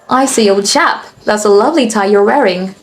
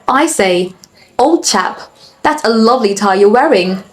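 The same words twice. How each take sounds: First: It is spoken in an American English accent. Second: It is spoken in a British English accent. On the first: "Now for the American accent" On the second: "That's in the British accent"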